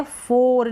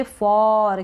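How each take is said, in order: First: फोर said slowly with a closed "o", the wrong way; the version to avoid, फोर with "o"; गलत उच्चारण फोर; wrong pronunciation. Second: फॉर with an open "aw" vowel; सही उच्चारण फॉर; correct pronunciation. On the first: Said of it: "नहीं पढ़ेंगे इसको". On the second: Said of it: "नहीं पढ़ेंगे इसको, इसको पढ़ेंगे फॉर". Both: Shown as a demonstration.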